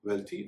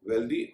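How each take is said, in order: First: The th is voiceless, as in 'thin'. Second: The th is voiced, as in 'this'. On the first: The speaker calls it right. "उनका उच्चारण वेल्थी ... ही होगा" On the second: The speaker calls it wrong. "कई लोग ... वेल्दी ... कर देते हैं"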